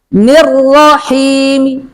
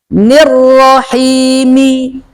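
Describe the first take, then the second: First: The final vowel is only faintly, partially voiced. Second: The final vowel is pronounced clearly and fully. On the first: "Ini kalau dibaca dengan raum" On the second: "Kalau dibaca jelas kan seperti ini"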